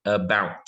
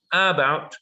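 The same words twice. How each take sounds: First: "about" with a weak A and strong BOUT; stress on second syllable. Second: "about" with A punched higher, as AH-bout; stress on first syllable. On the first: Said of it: "we're stressing our second syllable". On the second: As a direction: hit the A of "about". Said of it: "Is it about or is it". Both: Shown as a demonstration.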